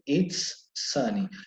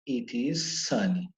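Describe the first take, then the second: First: The first two words are joined into one. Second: The first two words are said separately. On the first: "É mais rápido de falar" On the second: "uma palavra, outra palavra"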